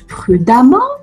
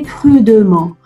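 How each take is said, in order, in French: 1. La voyelle après le d se prononce comme 'a'. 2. La voyelle après le d se prononce comme 'e'. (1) "écoutez, ça se prononce prudemment ... le e se prononcera a" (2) "Il y a des élèves qui vont me dire, maîtresse, on doit le prononcer prudemment. Non"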